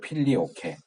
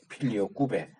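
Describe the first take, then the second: First: The word ends with a plain 'ke' sound. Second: The word ends with a rounded 'kwe' sound. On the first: This is the English reading of the word. The speaker calls it wrong. "필리오케라고 보통 발음을 하긴 하는데 그거는 영어 발음이고요" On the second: This is the Latin reading of the word. The speaker calls it right. "라틴어면 필리오 꾸베 이렇게 발음해야 맞아요"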